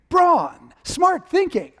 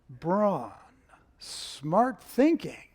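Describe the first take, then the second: First: It is said in a lively, peppy way. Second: It is said in a dry, wry way.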